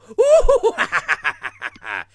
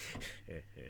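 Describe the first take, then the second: First: High, loud whooping Joker cackle; hoot, then burst into manic laughter; hammed-up clownish villain laugh; Cesar Romero. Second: Low, quiet sinister chuckle; Jack Nicholson. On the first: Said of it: "you got the classic Cesar Romero". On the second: Acted. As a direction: imitate a soft villainous heh-heh-heh. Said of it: "you had the Jack Nicholson".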